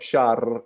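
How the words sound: The R is trilled with the tongue tip. "You don't use your tongue in like in Italian. It's not shark"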